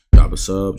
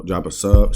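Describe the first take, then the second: First: Punchy, louder "Drop a sub"; louder subscribe call. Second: Said in the usual way. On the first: Shown as a demonstration. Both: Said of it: "See, I keep forgetting".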